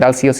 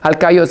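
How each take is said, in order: First: The name is said with an English pronunciation. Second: The name is said with a Greek pronunciation. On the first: "Alcéus is a more English pronunciation" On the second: "Alcaios is a more Greek pronunciation"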